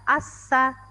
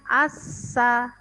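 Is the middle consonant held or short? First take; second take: short; held. First: The middle consonant is short and not held. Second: The middle consonant is pressed and held long. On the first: The letter has no doubling mark. "Kalau biasanya ini dibaca asa" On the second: The letter has a doubling mark. "ditekan dan ditahan dua harokat"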